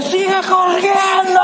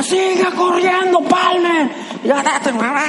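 First: Coach's shout. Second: Coach yelling. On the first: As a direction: yell it down from the stands. Coach yelling from the stands. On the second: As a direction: bark it like a coach from the stands. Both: Retold or imitated.

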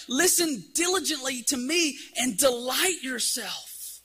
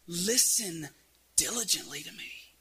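First: Higher, slow, drawn-out appeal; crying out. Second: Hushed quotation. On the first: Retold or imitated. Preacher voicing Isaiah's plea to the people, crying out. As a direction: call it out slowly, stretching the key words. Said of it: "Isaiah's crying out". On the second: Acted. Isaiah quoted softly as intimate call.

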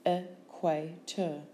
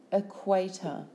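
First: Slow "Equator" as e, qua, tor; syllable by syllable. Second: Said in the usual way. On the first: Shown as a demonstration. Teacher giving syllables for spelling, Equator slowly in beats. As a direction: break Equator into three separate beats.

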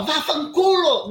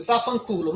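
First: Loud, high, drawn-out curse; aggressive shout. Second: Said in the usual way. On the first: Shown as a demonstration. Guest shows host how she didn't curse, loud angry shout. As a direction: yell the swear word full out, stretching it. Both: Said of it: "mas eu não falava".

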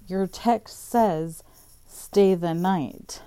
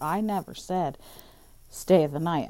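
First: "stay the night" said slowly and loudly, word by word; slow, loud stress on "stay the night". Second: Said in the usual way. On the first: Retold or imitated. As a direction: spell out "stay the night", louder and slower. She throws his text back.

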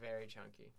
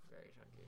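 First: Said in the usual way. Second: Breathy whispered repeat; whispered echo. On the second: Real, not acted. Friend agreeing they were chunky kids, whispered echo. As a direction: whisper it back as a soft aside. Echoing about being chunkers.

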